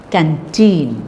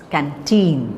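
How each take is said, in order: First: The stress is on the second syllable. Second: The same.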